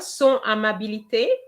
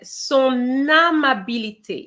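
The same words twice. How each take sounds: First: The n is not carried into the next word. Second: The n is carried into the next word. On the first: The speaker calls it wrong. "You remember son amabilité?" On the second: The speaker calls it right. "You should have said son amabilité. It is a liaison"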